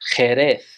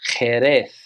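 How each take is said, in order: First: It is said with Spanish pronunciation. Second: The same.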